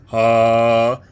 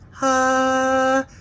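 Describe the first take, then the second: First: It is said at a low pitch. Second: It is said at a high pitch. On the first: "the sounds of lower pitches" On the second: "of higher pitches"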